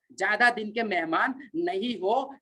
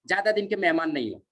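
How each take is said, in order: First: Drawn out, word by word; slow emphatic repeat. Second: Said in the usual way. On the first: Real, not acted. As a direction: stretch the warning out slowly for weight. Repeats warning slowly for emphasis.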